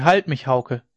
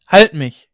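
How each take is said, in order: First: Louder pleading cry; a sick wife's loud plea to Hauke. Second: Loud high feverish scream; a sick wife's loud, higher scream for help. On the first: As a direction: call her husband's name in distress. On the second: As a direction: cry out in panic, very loud. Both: A narrator's reading. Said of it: "schrie sie".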